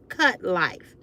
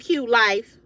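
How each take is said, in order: First: The first word has the vowel of 'cut'. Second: The first word has the vowel of 'cute'. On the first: The speaker calls it right. "but it's cut life" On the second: The speaker calls it wrong. "I thought it was a Q U T E"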